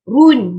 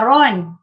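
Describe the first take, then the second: First: The vowel is a clear rounded 'u' sound. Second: The vowel is an open 'o' sound. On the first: The speaker calls it right. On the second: The speaker calls it wrong. "bukan ron"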